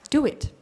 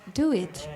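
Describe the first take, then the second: First: It is said firmly, like a command. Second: It is said warmly and gently. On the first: It is an order. "it's like an order" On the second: It is a loving request. "in a lovingly manner"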